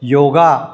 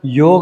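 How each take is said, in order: First: The word ends with an added a vowel. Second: The word ends on the consonant g. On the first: The speaker calls it wrong. "योगा असा करत नाही आहे आणि तो असा करू नका, तर तो चुकीचा उच्चार आहे" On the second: The speaker calls it right. "मी मुद्दाम त्याचा उच्चार योग असा करतो आहे"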